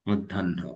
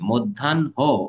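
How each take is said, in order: First: The h blends with the nasal n sound. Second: The h is split off as a separate syllable. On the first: The speaker calls it right. "হয়ের সাথে এই নয়ের একটা নাসিক ভবন যাবে সাথে সাথে" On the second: The speaker calls it wrong. "এমন করে নয়"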